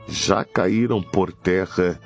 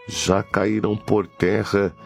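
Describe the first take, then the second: No difference in how they are said.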